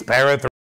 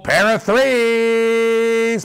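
First: Said in the usual way. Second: Drawn-out announcement. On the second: Real, not acted. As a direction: stretch "pair of threes" out very slowly and higher. Announcing the dice result live.

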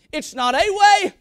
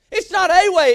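First: Said in the usual way. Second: "a" punched loud, as in just one of many; stress on a. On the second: Shown as a demonstration. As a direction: hit the word "a" hard and loud. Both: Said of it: "Can I say that?".

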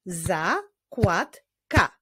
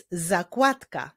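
First: "Zakładka" slowly as za, kład, ka; syllable by syllable. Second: Said in the usual way. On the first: Shown as a demonstration. Teacher shows syllable division, "Zakładka" slow with pauses between syllables. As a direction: clap "Zakładka" out in three separate beats. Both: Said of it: "Wyklaszczmy sylaby w tych wyrazach".

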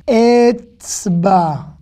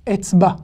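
First: "Etzba" with a long, drawn-out final A; lengthened A. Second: Said in the usual way. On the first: Shown as a demonstration. Teacher showing learners the lengthened final A of "Etzba". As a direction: slowly say "Etzba", holding the last A. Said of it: "Le A, il est rallongé ici".

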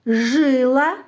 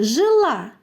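First: "жила" stressed on the first syllable, ЖИ-ла. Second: "жила" stressed on the last syllable, жи-ЛА. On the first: Teacher showing children a word pair, "жила" stressed on ЖИ. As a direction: hit ЖИ in "жила", let the second syllable go light. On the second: Teacher showing children a word pair, "жила" stressed on ЛА. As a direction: keep жи light and land on ЛА in "жила". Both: Shown as a demonstration. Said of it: "різне місце наголосу".

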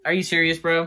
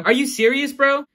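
First: Said in the usual way. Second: Incredulous. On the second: Real, not acted. Repeated higher, incredulous.

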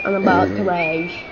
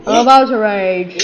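First: Said in the usual way. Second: Louder, warning outburst; rising frustration. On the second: Real, not acted. Gamer losing patience with the game, louder frustration. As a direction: push it out loudly, about to rage.

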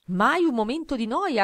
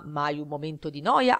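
First: Una mamma, voce più alta e lenta; mamma's line. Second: Un papà, voce più bassa; papà's echo. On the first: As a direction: chiude la frase come la mamma, con calma. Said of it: "ha concluso la mamma". (la mamma, alta e lenta) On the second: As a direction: ripete la frase come il papà, finale in salita. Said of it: "ha ripetuto papà". (il papà, voce più bassa) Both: A narrator's reading.

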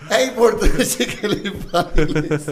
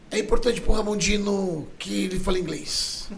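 First: Loud, slow words through laughter; higher, louder, broken up by laughing; laughing quote. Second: Lightly imitated podcast quote, pitched up; measured mock quotation, raised in pitch; Renato Cariani. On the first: Retold or imitated. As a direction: repeat it while cracking up. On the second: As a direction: quote him with a slightly higher voice. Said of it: "o Renato Cariani falou um dia no podcast".

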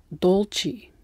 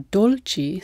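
First: Dolci said slowly with a dark L; American accent. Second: Said in the usual way. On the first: Shown as a demonstration. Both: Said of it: "use the dark L when they shouldn't".

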